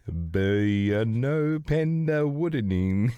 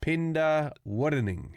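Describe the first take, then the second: First: Slow, halting try at "Burnopenda Woodening"; stumbling careful reading of an odd name; garbled name attempt. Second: Drawn-out "Penda Woodening"; careful sounding out; slow careful name. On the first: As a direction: sound out "Burnopenda Woodening" slowly, unsure of every syllable. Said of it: "That didn't even sound like words". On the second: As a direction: say "Penda Woodening" slowly, syllable by syllable. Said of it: "How do you say it". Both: Shown as a demonstration.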